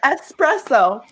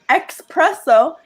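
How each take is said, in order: First: It is said with a plain s sound. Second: It is said with a ks sound, like express. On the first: The speaker calls it right. "instead of" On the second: The speaker calls it wrong. "my biggest pet peeve is people who say espresso"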